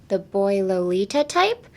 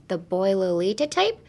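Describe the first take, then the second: No difference in how they are said.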